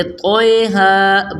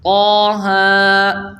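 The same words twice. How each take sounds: First: طٰہ said as toe-ha, Urdu style; mispronounced طٰہ, Urdu letter names; wrong pronunciation. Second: طٰہ recited as ta-ha with long drawn vowels; slow tajweed طٰہ; correct recitation. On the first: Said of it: "ہم اس کو یوں تو نہیں پڑھتے". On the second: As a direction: stretch طٰہ slowly like Quran recitation. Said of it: "بلکہ ہم پڑھتے ہیں". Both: Shown as a demonstration.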